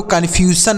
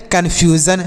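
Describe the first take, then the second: First: "कन्फ्यूजन" with a plain s, ending -san; wrong reading. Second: "कन्फ्यूजन" with a buzzing z in the last syllable; correct reading. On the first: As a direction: say "कन्फ्यूजन" as kan-fyu-san. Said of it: "यस का जो उच्चारण होता है वह स होता है". ("कन्फ्यूजन" में ज की जगह स, अंत में सन) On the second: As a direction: say "कन्फ्यूजन" ending in -zan, not -san. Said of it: "इसे आपको कन्फ्यूजन नहीं पढ़ना है". ("कन्फ्यूजन" के अंत में ज़न की ध्वनि) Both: Shown as a demonstration.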